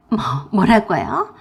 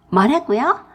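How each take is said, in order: First: Slow, stuttered "뭐, 뭐라고요" with long rise; stammering shock. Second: Louder, higher "뭐라고요" with sharp rise; indignant retort. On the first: Sister-in-law sputters "뭐라고요" in stunned disbelief. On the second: Sister-in-law retorts "뭐라고요" indignantly. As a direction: fire "뭐라고요" back indignantly. Angry phone quarrel. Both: Acted.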